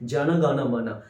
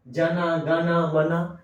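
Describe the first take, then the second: First: Each word ends on its final consonant. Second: Each word ends with an added 'a' vowel. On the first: The speaker calls it right. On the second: The speaker calls it wrong.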